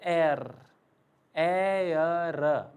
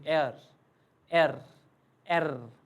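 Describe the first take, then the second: First: एयर drawn out like the English word air; एयर, the full English air sound; German R said like English air. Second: एयर clipped short to एर; quicker German R, एर; a bit quicker. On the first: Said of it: "English में बोलते हैं एयर". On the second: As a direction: say एर fast, one quick syllable. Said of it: "but थोड़ा जल्दी". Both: Shown as a demonstration.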